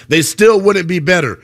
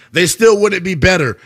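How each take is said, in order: Both takes have the same delivery.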